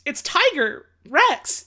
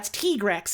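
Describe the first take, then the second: First: The first part is said in full as 'tiger'. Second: The first part is clipped to a short 'tig'. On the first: The name joins tiger and T Rex. The speaker calls it right. "a tiger mixed with a like a dinosaur T Rex" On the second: This is how the official version says it. The speaker calls it wrong. "the official English localization and pronunciations"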